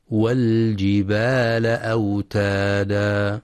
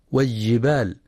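First: Slow recitation, والجبال with a distinct l; clear lam. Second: والجبال with the lam merged into the jim; merged lam mistake. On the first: Teacher correcting the error, slow recitation with clear lam in والجبال. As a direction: sound the l fully before the j in والجبال. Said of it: "لإظهار اللام القمرية". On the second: Teacher showing the error to avoid, lam swallowed in والجبال. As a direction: drop the l of والجبال into a doubled j. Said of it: "فلا يدغمها". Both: Shown as a demonstration.

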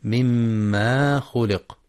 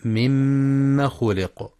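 First: مما خلق with a wrongly stretched aa; مما خلق, long mimmaa before khuliq; mistakenly lengthened meem. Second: مما خلق with held mm but short a; مما خلق, short mimma straight into khuliq; short fatha, no madd. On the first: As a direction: drag out the aa after the m in مما. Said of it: "بمد الميم". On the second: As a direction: hum the doubled m, cut the a of مما short. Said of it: "بالفتح فقط من غير مد". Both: Shown as a demonstration.

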